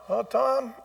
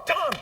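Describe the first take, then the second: First: Fond "Oh, Tom". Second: Grudging "Tom". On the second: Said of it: "doesn't even matter what they say". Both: Shown as a demonstration.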